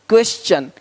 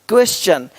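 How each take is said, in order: No difference in how they are said.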